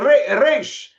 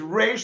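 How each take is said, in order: First: The R is a Spanish-style R. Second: The R is an American-style R. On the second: "like an American Resh"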